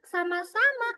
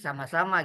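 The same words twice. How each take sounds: First: It is said in the same child-like voice. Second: It is said in a grown father's voice. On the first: The speaker calls it wrong. "Eh, salah" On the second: The speaker calls it right. "Suara ayahnya gimana ya?"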